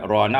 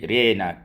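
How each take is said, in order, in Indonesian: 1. Vokalnya a terbuka biasa. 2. Vokalnya condong ke e.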